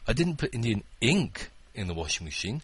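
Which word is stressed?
ink. The word "ink" is stressed. It was something other than ink. "It was an Indian curry"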